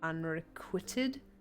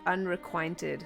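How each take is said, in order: First: The word is said without an extra N sound. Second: The word is said with an extra N sound. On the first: The speaker calls it right. "I think is how you say it" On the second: The speaker calls it wrong. "I always used to think there was an N in this word. Unrequited is how I used to say it"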